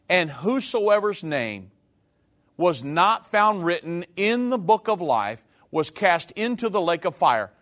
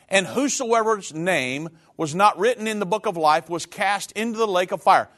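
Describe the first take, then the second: First: It is read very slowly. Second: It is read at a normal pace.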